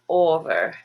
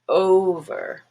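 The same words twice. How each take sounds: First: The first vowel is a single pure vowel. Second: The first vowel glides as a diphthong. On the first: The speaker calls it wrong. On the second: The speaker calls it right.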